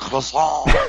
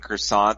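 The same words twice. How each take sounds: First: The word has an affected French pronunciation. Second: The word has a plain English pronunciation. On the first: "they suddenly go ... say it like that" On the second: "instead of saying croissant"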